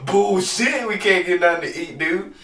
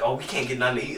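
First: Higher and a little louder, scoffing at her words; mocking disbelief. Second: Said in the usual way. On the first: Husband mocking his wife's complaint with scoffing disbelief. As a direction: throw her line back at her, incredulous. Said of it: "And I'm like". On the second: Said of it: "She's like".

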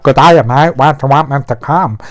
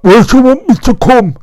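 First: Lightly voiced Australian accent, quick on the question; a hint of Australian, tossed off fast. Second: Much higher, louder put-on voice for the client; mock client voice. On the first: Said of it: "'cause he's from Australia". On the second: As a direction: squeak the question out like a caricature. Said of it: "obviously not like that, 'cause he's from Australia".

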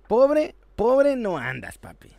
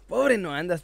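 First: Slow, loud, stretched pobre; drawn-out emphasis. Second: Said in the usual way. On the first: Acted. Joking about Messi's wealth.

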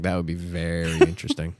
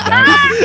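First: Said in the usual way. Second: Shrieking falsetto, very high and loud; high mock voice. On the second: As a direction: squeal it way up high. Mock voice then plain.

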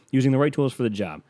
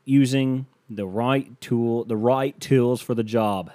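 First: Said in the usual way. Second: Slow put-on Australian accent; lightly done Australian ad voice; mock Australian accent. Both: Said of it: "That's an Australian accent".

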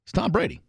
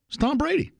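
First: Said in the usual way. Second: It's Tom Brady said much higher, rising on Brady; emphatic repeat. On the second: Real, not acted. Host insisting to listeners it's Brady, high and emphatic.

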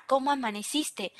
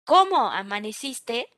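First: "¿cómo amaneciste?" softer and flat, no rise on "cómo"; flat statement. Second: "¿cómo amaneciste?" with a warm rise lifting on "cómo"; rising question. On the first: Teacher showing the same words with a period, flat and dry. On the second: Teacher showing how a friendly question mark sounds, rising. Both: Shown as a demonstration. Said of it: "o, por ejemplo, un punto".

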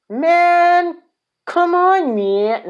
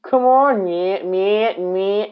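First: Much higher, whiny plea from a dumped sidekick; Lio Rush impression. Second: Higher, pleading sidekick whine, a bit less squeaky; second try at the begging partner; Lio Rush impression. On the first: Wrestling fan voicing Lio Rush pleading with Bobby Lashley, high whiny plea. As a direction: squeak it out like a kid begging his partner. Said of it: "I can't even do a Lio Rush impression". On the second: Wrestling fan retrying Lio Rush begging Bobby, higher pleading whine. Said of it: "He's gonna sound like that".

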